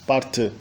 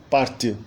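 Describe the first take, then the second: No difference in how they are said.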